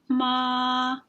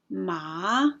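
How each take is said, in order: First: The pitch stays high and level. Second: The pitch rises from middle to high. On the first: "the first tone is a high level tone. It remains at approximately an even pitch" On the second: "The second tone is a rising tone"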